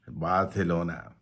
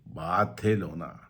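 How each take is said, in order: First: It is said with a Spanish pronunciation. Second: It is said with a common English pronunciation. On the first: "Spanish, so pronunciation is slightly different" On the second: "People call it Barcelona"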